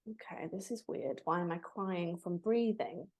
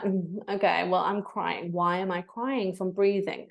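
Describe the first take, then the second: First: Much softer, puzzled thought; quietly baffled, crying after a breath class; puzzled inner thought. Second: Said in the usual way. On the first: Retold or imitated. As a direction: murmur it to yourself, confused. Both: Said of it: "And I was like".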